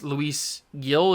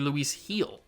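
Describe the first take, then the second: First: The surname begins with a hard G sound. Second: The surname begins with an H sound. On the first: The speaker calls it wrong. "is how I was pronouncing it, which is wrong" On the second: The speaker calls it right. "It's actually"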